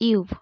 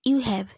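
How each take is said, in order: First: The words are joined into one short syllable. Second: Both words are said separately in full.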